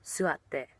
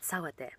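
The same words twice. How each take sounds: First: "suatte" with a "su" start; right word, suatte. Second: "sawatte" with a "sa" start; mistaken word, sawatte. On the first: Teacher gives the word she should have said, "suatte" with "su". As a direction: say "suatte" opening on "su". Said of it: "So I should have said". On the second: Teacher admits what she said instead, "sawatte" with "sa". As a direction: say "sawatte" opening on "sa". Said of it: "But instead I said". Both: Shown as a demonstration.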